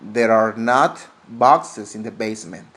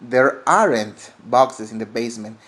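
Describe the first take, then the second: First: Are and not are said as two full words. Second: Are and not are joined into one contracted word.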